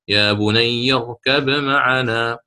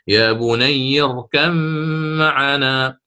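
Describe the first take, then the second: First: The b sound is pronounced clearly before m. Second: The b sound merges into the following m. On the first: "الإظهار" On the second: "يقدم الإدغام مثل ما ذكرت"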